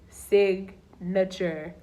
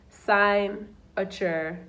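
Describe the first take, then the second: First: The stress falls on the expected syllable. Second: The stress falls on an unexpected syllable.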